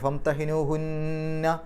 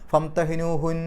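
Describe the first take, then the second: First: It ends with a nasal doubled n and vowel. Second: It ends on a short n with no vowel. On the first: The reader continues without stopping. "നിർത്താതെ പോവുകയാണെങ്കിൽ നൂനിൻ്റെ ശബ്ദം മണിച്ചിട്ട് പറയണം" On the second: The reader stops here. "അവിടെ നിർത്തുകയാണെങ്കിൽ"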